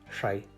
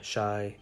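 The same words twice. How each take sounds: First: The first consonant is further back. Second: The first consonant is an English sh. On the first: The speaker calls it right. "farther back in the mouth" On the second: The speaker calls it wrong.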